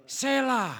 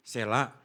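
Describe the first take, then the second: First: High, sharp call of the name; fierce-sounding call. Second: Not fierce. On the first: Preacher summoning a child in the congregation, high sharp call. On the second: Preacher reassuring a child he isn't fierce, gentle call. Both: Real, not acted. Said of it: "saya enggak galak kok ngomongnya".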